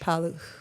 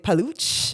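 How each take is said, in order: First: The name is said the Polish way, no C sound. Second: The name is said in an Italian-sounding way. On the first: The speaker calls it right. "just pretend the C is not there ... How Polish say it" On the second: The speaker calls it wrong. "It can be pronounced um, more uh, Italian. A lot of people say paluch, which is not right"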